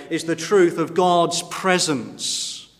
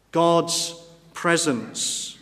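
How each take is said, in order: First: Said in the usual way. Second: God's presence drawn out slowly, each word weighed; slow stressed repeat. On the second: Shown as a demonstration.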